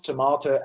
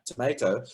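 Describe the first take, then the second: First: "tomato" with an ah in the middle, to-MAH-to; British-style tomato. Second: "tomato" with an ay in the middle, to-MAY-to; American-style tomato. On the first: Choir teacher showing students one way to pronounce it, "tomato" with an ah. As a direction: say "tomato" with a long ah vowel. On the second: Choir teacher showing students the other pronunciation, "tomato" with an ay. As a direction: say "tomato" with a long ay vowel. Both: Shown as a demonstration. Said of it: "you can pronounce tomato as in".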